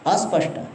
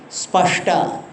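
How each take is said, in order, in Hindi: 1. 's' संयुक्त व्यंजन से पहले एक अतिरिक्त स्वर जोड़ा जाता है। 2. शब्द सीधे 's' संयुक्त व्यंजन से शुरू होता है। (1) "They say like this" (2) "They cannot say spashta"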